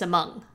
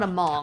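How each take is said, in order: First: The first vowel is a weak 'uh' sound. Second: The first vowel is a full 'o' sound. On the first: The speaker calls it right. "It's Among" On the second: The speaker calls it wrong. "It's not Among"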